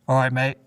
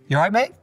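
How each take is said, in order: First: The greeting is said with flat, low pitch. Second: The greeting is said with high, rising pitch. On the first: The greeting sounds less enthusiastic. The speaker calls it wrong. "it's not just" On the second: The greeting sounds more enthusiastic. The speaker calls it right. "if your voice goes up, if you say it in a higher pitch"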